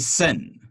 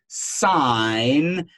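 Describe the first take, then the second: First: It has a short vowel, rhyming with 'fin'. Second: It has a long vowel, rhyming with 'fine'. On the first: The speaker calls it wrong. "Never say sin" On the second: The speaker calls it right. "It is sine because there is actually an E there"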